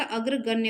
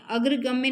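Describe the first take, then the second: First: अग्रगण्य ending in -ण्य, with an n; correct form अग्रगण्य. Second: अग्रगम्य ending in -म्य, with an m; wrong form अग्रगम्य. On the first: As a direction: say अग्रगण्य with n before the final ye. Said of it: "अग्रगण्य होता है". (अग्रगण्य, अंत में ण की ध्वनि के साथ) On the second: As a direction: say अग्रगम्य with m before the final ye. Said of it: "अग्रगम्य नहीं होता". (अग्रगम्य, अंत में म की ध्वनि के साथ) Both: Shown as a demonstration.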